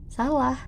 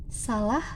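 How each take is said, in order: The two takes are said the same way.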